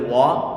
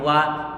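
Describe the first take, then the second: First: The vowel is said thick and heavy. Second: The vowel is said thin and light. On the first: The speaker calls it wrong. "gak boleh wa" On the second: The speaker calls it right. "Waw kita baca tipis"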